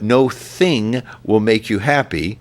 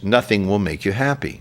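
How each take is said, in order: First: The stress falls on the syllable thing. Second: The stress falls on the syllable no. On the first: No object can bring happiness. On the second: The absence of things brings happiness.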